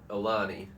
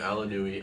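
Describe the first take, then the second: First: The name ends simply in 'nee' with no extra sound. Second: The name has an extra 'oo' sound near the end. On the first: The speaker calls it right. "it's Alani" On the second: The speaker calls it wrong. "I've always said Alanui too"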